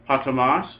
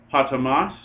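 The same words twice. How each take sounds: The two takes are said the same way.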